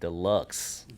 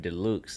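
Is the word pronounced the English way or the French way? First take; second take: English; French. First: The word is pronounced the English way. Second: The word is pronounced the French way.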